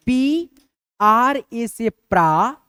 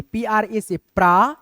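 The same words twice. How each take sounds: First: Very slow, stretched letters; slow dictation. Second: Said in the usual way. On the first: Shown as a demonstration. Teacher slowly dictating a spelling to students. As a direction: draw each letter out for the class. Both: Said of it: "इसका हम लोग कैसे लिखेंगे".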